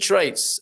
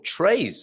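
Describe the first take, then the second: First: The t before the final s is pronounced. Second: The t before the final s is dropped.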